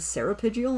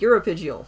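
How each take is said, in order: First: The word begins with an 'ser' sound. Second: The word begins with a 'yur' sound. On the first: The speaker calls it wrong. "I'd been saying seripygial, and I don't know why" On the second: The speaker calls it right. "oh, uropygial"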